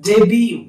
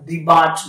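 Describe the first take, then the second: First: The final t is silent. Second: The final t is sounded. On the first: The speaker calls it right. "উচ্চারণটা কিন্তু ডেবিউ" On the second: The speaker calls it wrong. "উচ্চারণটা ডিবাট নয়"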